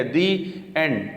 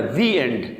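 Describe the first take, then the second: First: دی end with a gap between the words; broken between words. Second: دی end linked with no gap; joined up. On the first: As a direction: cut the sound after دی, then say and. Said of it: "آواز کو ٹوٹنے نہیں دینا". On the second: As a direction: glide from دی straight into and. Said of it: "اس کو ملا کے پڑھنا ہے". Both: Shown as a demonstration.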